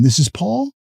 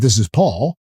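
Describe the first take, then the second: First: The voice rises at the end like a question. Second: The voice falls at the end like a statement.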